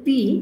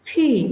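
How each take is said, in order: First: The first consonant is plain, without a puff of air. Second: The first consonant has a strong puff of air.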